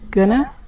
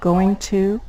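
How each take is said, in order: First: The words blend into a reduced form. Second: The words are said fully and separately.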